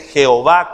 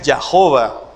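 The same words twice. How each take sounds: First: The name is pronounced with Spanish sounds. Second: The name is pronounced with English sounds.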